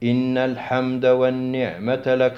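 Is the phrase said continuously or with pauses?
continuous. The phrase runs on without any pause inside. The speaker calls it right. "نقول إن الحمد والنعمة لك"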